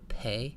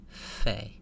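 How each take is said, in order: First: It begins with a stopped p sound. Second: It begins with a breathy f sound. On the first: "the stopped form of the letter. Sounds like pe" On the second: "The spirited form of the letter without the dagesh ... sounds like f"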